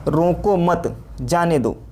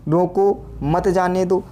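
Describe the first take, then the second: First: The pause comes right after mat. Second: The pause comes right after roko.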